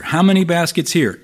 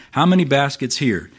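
First: Frustrated repeat. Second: A touch of exasperation on "How many baskets here?"; mildly frustrated question. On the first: Jesus pressing the disciples again, higher exasperated repeat. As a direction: repeat "How many baskets here?" with rising exasperation. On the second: Jesus to the disciples in the boat, mild frustration. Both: Retold or imitated. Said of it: "You can almost hear the frustration here in Jesus' voice".

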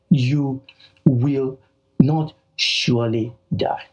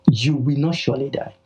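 First: "You", "will", "not surely die" split by pauses; slow, forceful contradiction; emphatic. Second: Said in the usual way. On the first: Retold or imitated. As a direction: punch it out word by word. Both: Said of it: "Satan came and emphatically said".

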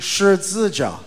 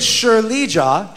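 First: "Shi Zi Jia" with a buzzed "Zi" in the middle; contrasted pronunciation. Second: Slow, higher "Shi Li Jia" with clear "Li"; contrasted pronunciation. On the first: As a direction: set "Zi" apart as the differing syllable in "Shi Zi Jia". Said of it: "She responded". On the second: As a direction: make the middle syllable "Li" distinct in "Shi Li Jia". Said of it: "So I said". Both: Shown as a demonstration.

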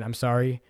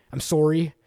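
First: Said in the usual way. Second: Sorry said with a rounded "sore" vowel; Canadian sorry. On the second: Shown as a demonstration. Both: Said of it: "you don't know that I'm Canadian".

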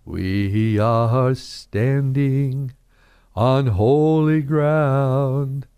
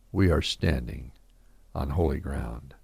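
First: Slow sung hymn phrase. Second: Much lower and softer, a hushed echo of the hymn; spoken softly. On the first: Shown as a demonstration. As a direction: sing it slowly like a church hymn. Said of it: "Another song comes to my mind". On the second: Real, not acted. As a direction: whisper the hymn words back as a quiet truth.

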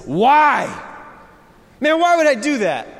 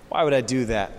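First: High, loud disbelieving why; incredulous why. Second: Said in the usual way. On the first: Retold or imitated. Pastor voicing a doubting listener, high incredulous why. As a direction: voice the listener's baffled objection, pitched up. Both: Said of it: "the natural question as you hear that is".

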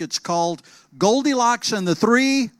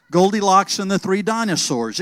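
First: Said in the usual way. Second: Goldilocks stressed, said a little louder as the fix; corrected title. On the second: Shown as a demonstration.

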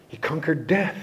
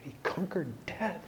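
First: Said in the usual way. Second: Soft, almost under the breath; hushed awe. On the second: Shown as a demonstration. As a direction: say it quietly in awe.

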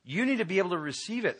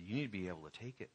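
First: Higher, louder and fast; urgent raised plea; urgent insistence. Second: Softer and fast, pressing gently; hushed urgent plea; low-key firm urging; quiet insistence. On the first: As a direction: press him to accept. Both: Retold or imitated. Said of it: "I said".

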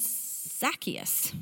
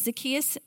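First: "Zacchaeus" as ZAK-ee-us; first-syllable stress. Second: "Zacchaeus" as zuh-KEE-us; second-syllable stress. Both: Shown as a demonstration. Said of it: "I'm gonna probably use both".

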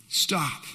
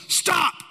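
First: Said in the usual way. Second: King yells. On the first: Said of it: "He yells it one more time". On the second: Acted. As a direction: shout it at the waves like a king. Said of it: "the king just yells".

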